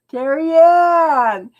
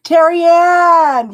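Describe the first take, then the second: First: Name drawn out slowly through a laugh; amused drawn-out laugh on the name. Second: Calling out. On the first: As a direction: laugh while you say her name. Laughing at the viewer's request. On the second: Calling out a viewer's name. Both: Real, not acted.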